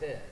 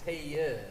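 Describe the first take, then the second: First: The name is said as one syllable. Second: The name is stretched into two syllables. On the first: This is how most people say it. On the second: This is how his mother says it. "my mom says it with two syllables"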